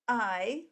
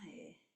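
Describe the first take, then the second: First: It starts with a sharp, hard catch. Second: It starts softly with a puff of breath. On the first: "starting it with that very hard type of start, that's called a hard glottal onset" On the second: "there's a soft aspirated glottal onset"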